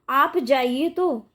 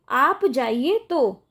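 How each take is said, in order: Both takes have the same delivery.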